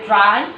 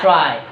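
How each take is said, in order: First: ট্রাই with an unaspirated ট, rising; ট্রাই opening on Bangla ট, not ঠ; mispronounced T. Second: ট্রাই with a puffed T, falling; ট্রাই opening on ঠ, not ট; correct aspirated T. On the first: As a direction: say ট্রাই with no puff on the T. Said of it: "আমি ভুল উচ্চারণ করবো". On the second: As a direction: say ট্রাই with the T breathed like ঠ. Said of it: "এটা ঠ, এটা উচ্চারণ কি হবে". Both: Shown as a demonstration.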